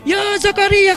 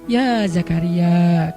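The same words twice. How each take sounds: First: It is shouted loudly at high pitch. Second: It is said calmly at normal volume.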